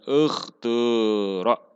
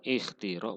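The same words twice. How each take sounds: First: The long vowel falls between u and i. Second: The long vowel is a clear i sound. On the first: "boleh diismamkan ... antara domah dan kasroh" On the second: "boleh dikasrohkan"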